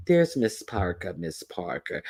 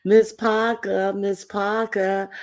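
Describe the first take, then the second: First: Said in the usual way. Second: Drawn-out high call. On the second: Acted. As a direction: call her name slow and high. Calling out a name.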